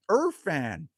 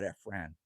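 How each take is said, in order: First: "Irfan" said as ER-fan, with an r-colored first vowel; "Irfan" starting "er", stressed on the first syllable; corrected pronunciation. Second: "Efran" said with a short e, like EF-ran; "Efran" starting with "eh", falling tune; wrong pronunciation. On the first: Shown as a demonstration. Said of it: "It's Irfan". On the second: Real, not acted. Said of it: "Irfan. It's Irfan".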